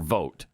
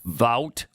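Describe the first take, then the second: First: The vowel sounds like the one in 'oat'. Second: The vowel sounds like the one in 'out'. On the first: "pronounced either way, Vout or Vote" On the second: "pronounced either way, Vout or Vote"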